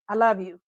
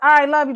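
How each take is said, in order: First: It is said in a tender, romantic tone. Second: It is said in a casual, friendly tone. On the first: The love is romantic. "There's a difference in how you say it" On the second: The love is platonic friendship. "it's a bro love"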